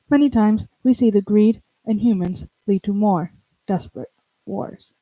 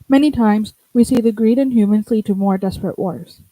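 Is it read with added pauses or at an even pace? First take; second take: added pauses; even pace. First: It is read with several deliberate pauses. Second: It is read evenly without added pauses.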